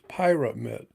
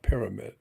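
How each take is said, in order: First: The first syllable sounds like 'pie'. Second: The first syllable sounds like 'peer'. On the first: The speaker calls it right. "it's pyramid. P Y R A, which is a word for fire, pyromaniac" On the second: The speaker calls it wrong. "it's not pyramid"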